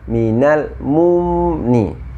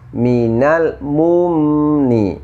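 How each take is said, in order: First: The lips stay rounded through the second m. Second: The lips return to neutral on the second m. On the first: The speaker calls it wrong. "ketika kita membunyikan mim sukun, terbawa bergerak ke dhammah" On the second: The speaker calls it right. "normalkan kembali bibirnya untuk mim sukunnya. Seperti ini"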